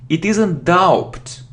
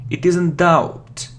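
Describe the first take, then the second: No difference in how they are said.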